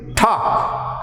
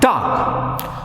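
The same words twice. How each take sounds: First: The first t has a strong puff of air. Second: The first t has no puff of air. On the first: The speaker calls it right. "we have to say talk" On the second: The speaker calls it wrong. "and not talk"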